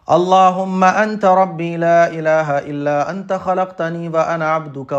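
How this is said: It is recited continuously in one breath.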